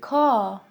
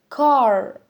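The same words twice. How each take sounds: First: The word is said with a British accent. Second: The word is said with an American accent. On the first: "British people say car" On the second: "Americans say car"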